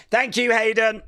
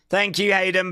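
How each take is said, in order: First: Said in the usual way. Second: Breathy unvoiced whisper. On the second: Shown as a demonstration. Repeating his thanks to the ref as a whisper.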